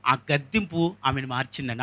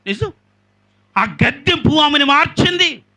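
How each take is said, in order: First: Said in the usual way. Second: Loud, high preaching of ఆమెను with a falling end; emphatic declaration. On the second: Shown as a demonstration. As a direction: proclaim it to the crowd. (బిగ్గరగా, ఉద్ఘాటనతో ప్రకటన) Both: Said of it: "ఆమెను చెప్పండి".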